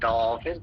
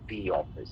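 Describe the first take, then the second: First: 'The' is said with a short 'uh' vowel. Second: 'The' is said with a long 'ee' vowel. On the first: The speaker calls it wrong. "Not in द office" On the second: The speaker calls it right. "But द office, this is द rule"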